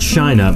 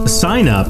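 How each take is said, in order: First: Said in an impression slurring s into sh. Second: Said plainly with a normal s sound. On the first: "That's Sean Connery signing up" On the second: "sign up, not shine up"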